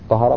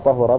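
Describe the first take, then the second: First: The second vowel is an a sound. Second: The second vowel is a u sound. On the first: It became pure. "طهر معناها تطهر أصبح طاهرا" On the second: It became thoroughly and fully pure. "طهر بالضم فأولى تقتضي المبالغة"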